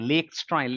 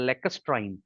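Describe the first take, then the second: First: The first syllable sounds like 'lake'. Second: The first syllable sounds like 'lack'. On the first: The speaker calls it wrong. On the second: The speaker calls it right.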